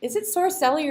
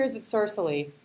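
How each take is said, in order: First: Sorcelli as sor-SELL-ee, stress on the middle; Sorcelli pronunciation check. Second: Sorcelli as SOR-suh-lee, stress up front; alternative Sorcelli pronunciation. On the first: Interviewer checking a guest's surname, Sorcelli said sor-SELL-ee. Asking which pronunciation is right. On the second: Interviewer offering another surname reading, Sorcelli said SOR-suh-lee. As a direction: say Sorcelli with a weak, reduced middle syllable. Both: Real, not acted.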